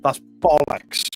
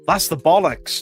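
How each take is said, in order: First: It sounds dismissive, calling something a lie. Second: It sounds impressed, praising something as great.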